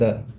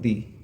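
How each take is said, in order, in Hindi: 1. इस शब्द का अंत छोटे 'uh' स्वर से होता है। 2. इस शब्द का अंत लंबे 'ee' स्वर से होता है। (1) "जब यहाँ पर कॉन्सोनेंट साउंड है तो इसको पढ़ रहे हैं द" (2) "वोवेल साउंड, तो इसको पढ़ते हैं हम लोग दी"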